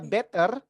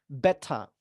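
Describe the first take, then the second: First: It is said with an Indonesian accent. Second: The t is crisp, and no final r. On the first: The speaker calls it wrong. "itu nggak American, nggak British. Indonesia banget ya" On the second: The speaker calls it right. "diletupkan dan R-nya dihilangkan ... itu kedengaran British"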